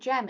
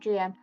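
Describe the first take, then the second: First: It is said as one word, like gem. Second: It is said as two separate letters. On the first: The speaker calls it wrong. "I made it sound like I said Gem" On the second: The speaker calls it right. "instead of G M"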